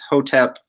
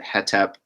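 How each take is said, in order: First: The first vowel is an 'oh' sound. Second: The first vowel is an 'eh' sound. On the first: This follows the later Coptic pronunciation. "the Coptic word for uh, to rest is hotep" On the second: Vowels are filled in by convention for convenience. "we pronounce it hetep, uh, just for convenience"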